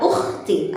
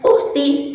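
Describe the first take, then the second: First: The middle consonant is a rough, throaty kh. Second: The middle consonant is a plain, smooth h. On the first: The speaker calls it right. "dengan suara dan nafas yang keruh" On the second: The speaker calls it wrong. "bukan dengan pelafalan uhti ... pelafalan yang salah"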